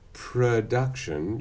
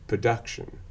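First: The R comes before the first vowel. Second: The first syllable has no R sound. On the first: "instead of production" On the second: "if you are non-rhotic, you'll say production"

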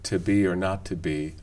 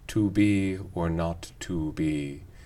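First: The word 'to' has a reduced vowel with unrounded lips. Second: The word 'to' has a full long oo vowel. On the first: "I don't personally find to be or not to be hard on the ear" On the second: "we fully say to be or not to be"

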